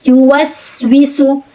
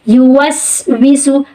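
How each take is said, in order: Both takes have the same delivery.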